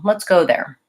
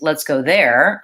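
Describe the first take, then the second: First: The word go carries the stress. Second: The word there carries the stress. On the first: It is a plain everyday suggestion to go. "go gets stressed because it's the verb and it's the most important word" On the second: That place is wanted rather than somewhere else. "I'm highlighting I want to go there rather than somewhere else"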